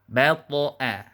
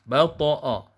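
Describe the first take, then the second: First: The final vowel stays thin, like 'a'. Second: The final vowel is heavy, like 'o'. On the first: The speaker calls it right. "a tetap di vokalnya" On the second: The speaker calls it wrong. "sehingga bunyinya jadi menjadi bo"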